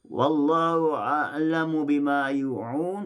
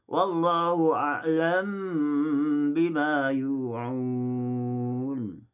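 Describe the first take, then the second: First: The m is followed by a vowel, pronounced separately. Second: The m runs directly into the following b. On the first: "dibaca secara tahqiq" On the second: "dibaca dengan idgham"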